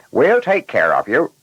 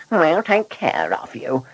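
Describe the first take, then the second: First: Higher, louder chipper reply as a driver; reassuring driver. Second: High-pitched mocking echo; mocking mimicry. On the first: Driver telling the passenger they'll take care of him, reassuring. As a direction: play the driver promising good care. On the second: Blunderbuss parroting the driver's promise to the passenger, mocking. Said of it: "he mimicked". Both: A narrator's reading.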